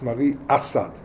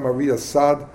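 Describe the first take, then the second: First: Asad is stressed on its first syllable. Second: Asad is stressed on its last syllable. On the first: The speaker calls it right. "in Hungary, the accent was usually on the first syllable" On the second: The speaker calls it wrong. "The Hungarians tell me I always pronounce it wrong. It's not"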